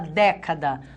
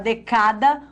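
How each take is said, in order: First: The stress is on the first syllable. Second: The stress is on the middle syllable. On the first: The speaker calls it right. "Nós falamos década" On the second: The speaker calls it wrong. "a gente fala decada"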